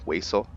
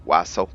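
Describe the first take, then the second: First: Wassail with a long a, as in "way-sul"; alternative pronunciation. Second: Wassail with a short a, as in "wass-ul"; alternative pronunciation. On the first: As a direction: say Wassail with the first syllable like way. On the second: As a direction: say Wassail to rhyme with tassel. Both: Real, not acted. Tries two ways of saying word.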